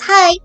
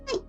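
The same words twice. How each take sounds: First: It is said in a normal voice. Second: It is said in a tiny squeak.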